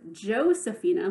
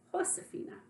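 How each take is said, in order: First: The name begins with an English J sound. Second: The name begins with an H sound. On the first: "Josefina with a J in English" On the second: "J is pronounced like H"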